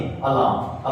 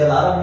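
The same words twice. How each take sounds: First: अलार्म as a-laam, the r dropped, whispered; correct pronunciation. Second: अलार्म with a rolled r, a-la-ram in three syllables; wrong pronunciation. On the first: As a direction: softly model अलार्म as a-laam without the r. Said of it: "अलार्म पढ़ते हैं बहुत सारे बच्चे". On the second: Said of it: "अलार्म नहीं". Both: Shown as a demonstration.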